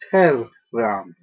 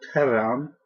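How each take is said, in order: First: The R in the middle is long and doubled. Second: The R in the middle is short and single. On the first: The speaker calls it right. "That double R, both have individual pronunciations" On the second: The speaker calls it wrong. "this is not terram"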